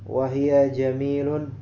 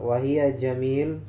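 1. Kata terakhir diakhiri dengan tambahan -un. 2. Kata terakhir berakhir pada konsonan mati. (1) "itu harokat ثانيتanya harokat wahia jamilun" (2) "atau lebih wahia jamil"

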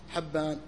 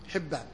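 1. الحركة الأولى فتحة. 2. الحركة الأولى كسرة. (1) "كل الرواة يقال لهم حبان" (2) "فهو بالكسر يقال له حبان"

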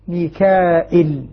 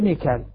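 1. فيه همزة لكن بلا ياء مدّ طويلة. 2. ليس فيه همزة ولا ياء مدّ طويلة. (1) "بهمز بدون ياء" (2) "حذف الياء والهمزة ميكال"

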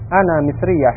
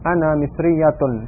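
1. Kata itu berhenti tanpa akhiran vokal. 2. Kata itu berakhir dengan vokal penuh.

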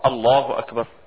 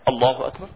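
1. تُقال العبارة ببطء وهدوء. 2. تُقال العبارة بسرعة وعجلة. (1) "انا كده اطمئنيت" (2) "لكن اصلي كده"

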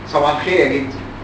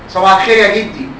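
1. تُقال التحية بصوت عادي. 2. تُقال التحية بصوت أعلى.

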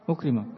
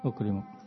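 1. Kata ini diakhiri dengan vokal 'a'. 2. Kata ini diakhiri dengan vokal 'u'. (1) "Menasabkan ukrima dengan idan dalam kalimat ini salah" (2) "dengan dhammah ukrimuk"

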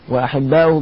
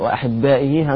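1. الهمزة بعدها ضمة. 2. الهمزة بعدها كسرة. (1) "بالرفع أيضا" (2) "همزة على نبرة على الياء"

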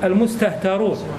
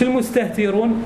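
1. الحركة بعد التاء هي 'a'. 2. الحركة بعد التاء هي 'i'. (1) "بفتح التاء" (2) "مش المستهترون"

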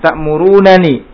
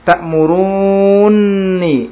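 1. Dua bunyi n terpisah, dengan vokal di antaranya. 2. Dua bunyi n menyatu menjadi satu n ganda. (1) "Yang pertama al-fak dipecah nunnya" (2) "Yang kedua dengan idgham"

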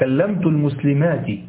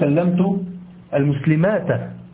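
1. تنتهي الكلمة الأخيرة بالصوت 'i'. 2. تنتهي الكلمة الأخيرة بالصوت 'a'. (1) "لا،" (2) "لا تقول"

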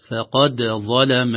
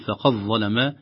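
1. يُنطق حرف الدال بقلقلة خفيفة. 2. يُدغم حرف الدال في الصوت الذي بعده. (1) "وإظهارها يكون بقلقلتها" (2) "يدغم الدالة الساكنة في الضاء"

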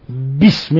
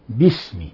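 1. يُنطق b مشدودًا ومتوترًا. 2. يُنطق b خفيفًا ومرتخيًا. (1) "كز عليها كما تشددها باسم، لا خطأ" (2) "وإنما باسم"

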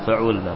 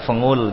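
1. Huruf tengahnya bunyi tenggorokan. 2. Huruf tengahnya bunyinya seperti ng sengau.

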